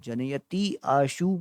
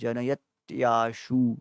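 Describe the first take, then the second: First: The two words are said separately. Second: The two words are merged into one. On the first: "जनयति आशु बोलिए" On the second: "नहीं तो फिर जनयत्याशु भी बोल सकते हैं"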